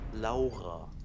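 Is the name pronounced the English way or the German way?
German. The name is pronounced the German way.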